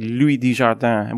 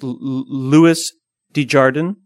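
First: The name is said with a French pronunciation. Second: The name is said with an American pronunciation. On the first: The speaker calls it wrong. "I always pronounce it like he's French" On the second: The speaker calls it right. "I think it's Louis Desjardin"

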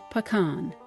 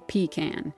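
First: Pecan is said the urban, city way. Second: Pecan is said the rural, down-home way. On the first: The speaker sounds more urbane. "If you want to sound a little more urbane" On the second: The speaker sounds down home and country. "if you want to sound down home or a little bit country"

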